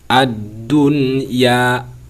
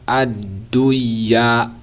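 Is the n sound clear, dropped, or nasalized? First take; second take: clear; dropped. First: The n sound is clear with no nasal hum. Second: The n sound is left out entirely. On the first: The speaker calls it right. "Kita jelaskan, tak boleh didengungkan" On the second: The speaker calls it wrong. "Jangan pula dibaca"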